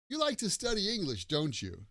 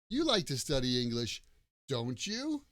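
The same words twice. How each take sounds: First: The pitch falls on the tag at the end. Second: The pitch rises on the tag at the end. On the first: The speaker expects agreement. "so my intonation goes down. I'm just looking for agreement" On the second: The speaker is not sure and is checking. "And the intonation goes up"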